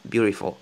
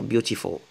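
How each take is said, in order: First: Beautiful said with an R in place of the t, butifo; beautiful, the middle t turned into an R; R sound for t. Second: Said in the usual way. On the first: Shown as a demonstration. Teacher showing her simplified beautiful, t as R. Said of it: "je dis R". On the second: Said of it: "vous pouvez dire beautiful".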